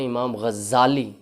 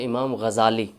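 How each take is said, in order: First: The z sound is doubled and held longer. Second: The z sound is single and short. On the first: The speaker calls it wrong. "ये नहीं दुरुस्त" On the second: The speaker calls it right. "ज़ा के ऊपर तशदीद नहीं है"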